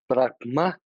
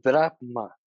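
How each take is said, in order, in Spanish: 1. La palabra se dice con acento. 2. La palabra se dice sin acento. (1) "con el acento" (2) "sin el acento"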